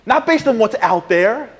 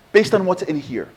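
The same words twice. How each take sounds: First: "based" slow and rising, out there set against in here; stress on based. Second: "based" falling firmly, in here set against out there; stress on based. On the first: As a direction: lean on "based" with a rising tune. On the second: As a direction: land "based" with a falling tune. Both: Shown as a demonstration.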